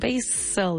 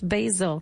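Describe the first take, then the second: First: The middle consonant is a hissing S sound. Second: The middle consonant is a buzzing Z sound. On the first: The speaker calls it wrong. "no decimos basil" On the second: The speaker calls it right. "decimos basil, como si fuera una Z"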